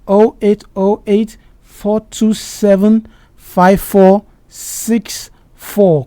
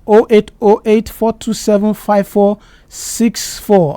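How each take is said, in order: First: The number is said slowly and deliberately. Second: The number is said at normal, quicker speed.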